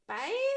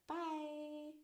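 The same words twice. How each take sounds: First: It sounds anxious and uncertain. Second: It sounds neutral and plain.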